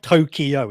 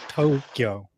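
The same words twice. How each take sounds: First: The first vowel is short. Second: The first vowel is long. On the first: The speaker calls it wrong. "it's not" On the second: The speaker calls it right. "The to is a long elongated"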